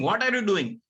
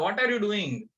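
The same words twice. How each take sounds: First: The question sounds harsh and angry. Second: The question sounds calm and friendly. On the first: The listener fears they did something wrong. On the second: The listener simply explains what they are doing.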